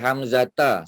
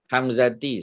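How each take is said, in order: First: The word ends with the sound a. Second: The word ends with the sound i.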